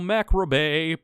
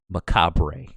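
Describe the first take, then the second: First: The word is said ending in a 'bay' sound. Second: The word is said ending in a 'bruh' sound. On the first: The speaker calls it wrong. "I know that's not how you say it" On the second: The speaker calls it right. "It's macabre"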